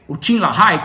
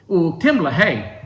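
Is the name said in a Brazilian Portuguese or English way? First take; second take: Brazilian Portuguese; English. First: The name is said with Brazilian Portuguese sounds. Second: The name is said with English sounds. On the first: This is how people locally say the name. "como dizem aqui no Brasil" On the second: This is how the name's owner would recognize it. "eu vou chamar ele de Tim LaHaye porque é, é o que ele reconheceria"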